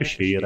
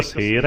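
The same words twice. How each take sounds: First: "ਸ਼ੇਰ" with a sh, as if dotted; hushing sh at the start of "ਸ਼ੇਰ"; sh sound. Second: "ਸੇਰ" with a plain s, no dot; plain s sound. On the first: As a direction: say "ਸ਼ੇਰ" as sher, not ser. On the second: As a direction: say "ਸੇਰ" as ser, not sher. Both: Shown as a demonstration. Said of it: "ਇੱਥੇ ਸੱਸੇ ਦੇ ਪੈਰ 'ਚ ਬਿੰਦਾ ਲਾ ਕੇ ਬੋਲੇਗਾ ਸ਼ੇਰ".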